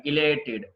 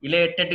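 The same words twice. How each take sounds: First: ఇలేటెడ్ ending in "tid"; correct pronunciation. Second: ఇలేటెడ్ ending in a hard "tet"; wrong pronunciation. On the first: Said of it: "ఇలేటెడ్ కాదండి". (ఇలేటెడ్ చివర "టిడ్" అని) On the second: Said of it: "కాదండి". (ఇలేటెడ్ చివర "టెట్" అని తప్పుగా) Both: Shown as a demonstration.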